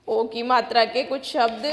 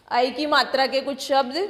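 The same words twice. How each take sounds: First: Said in the usual way. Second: ऐ said as a clear open "ai" in place of ओ; calm correction, ऐ clearly "ai"; corrected vowel. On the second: Shown as a demonstration. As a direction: fix the slip, saying ऐ as "ai". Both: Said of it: "sorry".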